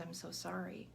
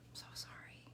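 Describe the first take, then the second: First: Softer sympathetic I'm so sorry, no whisper; soft condolence. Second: I'm so sorry fading to a bare whisper; whispered condolence. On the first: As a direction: say it gently like a usual condolence. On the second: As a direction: let the second sorry die away into breath. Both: Retold or imitated. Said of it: "we typically say is".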